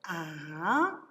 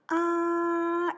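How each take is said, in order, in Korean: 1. 음이 중간에서 높은 곳까지 올라가요. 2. 음이 높은 상태로 평평하게 유지돼요. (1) "산비탈에서 비스듬히 올라서 산 꼭대기까지 ... 이것이 이성이 된다" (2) "높은 곳에서 쭉 방향을 변하지 않고 간다. 이것이 일성이야"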